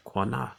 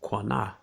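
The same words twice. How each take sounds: First: Quanah said KHWAH-nah with a rising end; Hebrew word repeated. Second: Quanah said KWAH-nah, falling at the end; Hebrew word Quanah. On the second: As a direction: sound out Quanah plainly, stress on the first syllable. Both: Shown as a demonstration. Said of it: "what's the Hebrew word?".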